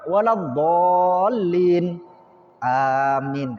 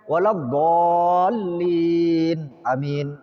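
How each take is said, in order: First: A short pause comes before the second word. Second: The two words run together without a pause. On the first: The speaker calls it right. "Jeda sebentar, setelah itu uh, umpama waladhdallin amin" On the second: The speaker calls it wrong. "Jadi bukan waladhdallin amin"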